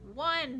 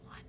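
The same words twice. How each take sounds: First: The word is said in a normal voice. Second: The word is said in a quiet whisper.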